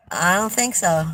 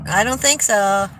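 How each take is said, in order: Both takes have the same delivery.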